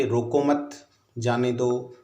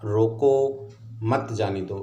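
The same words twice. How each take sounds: First: Slow रोको मत, pause, then जाने दो; pause after मत. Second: Slow रोको, pause, then मत जाने दो; pause after रोको. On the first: Teacher moving the comma for students, pause after मत. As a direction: keep रोको मत together, break after मत. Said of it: "अल्प विराम यदि अपन मत के बाद लगाते". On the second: Teacher showing how a comma changes meaning, pause after रोको. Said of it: "रोको के बाद यदि अल्प विराम का प्रयोग". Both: Shown as a demonstration.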